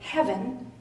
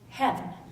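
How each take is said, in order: First: The word is said with two syllables. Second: The word is squeezed into one syllable.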